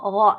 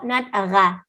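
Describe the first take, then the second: First: The syllable sounds dark and heavy. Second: The syllable sounds light and thin. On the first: The speaker calls it right. "So it's a heavy letter" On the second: The speaker calls it wrong. "not ra. Rain is wrong"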